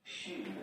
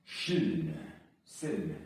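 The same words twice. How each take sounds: First: Said in the usual way. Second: Loud, forceful Silny; powerful strong-sounding take. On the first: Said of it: "Let's try". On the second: Shown as a demonstration. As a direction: say Silny like you mean power. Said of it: "silny would not sound powerful".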